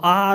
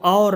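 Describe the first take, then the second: First: The vowel sounds like 'aar'. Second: The vowel sounds like 'aur'. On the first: The speaker calls it right. "वो आर होता है" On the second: The speaker calls it wrong. "वो और नहीं होती"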